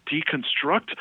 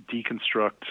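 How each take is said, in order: First: The word "Deconstruct?" repeated higher, rising in disbelief; "Deconstruct?" echoed with a high, offended rise; indignant echo. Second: Said in the usual way. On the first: Retold or imitated. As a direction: throw "Deconstruct?" back as if insulted. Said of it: "He's like".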